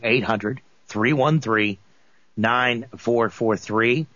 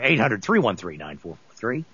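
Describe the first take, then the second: First: The number is said slowly. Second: The number is said at normal speed.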